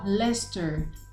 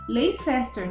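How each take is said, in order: First: Several written letters are dropped, making it shorter. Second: Every written letter of the word is sounded. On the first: The speaker calls it right. "Mas a gente não vai falar desse jeito, nós vamos falar" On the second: The speaker calls it wrong. "se a gente fosse ler, né, a gente falaria o quê?"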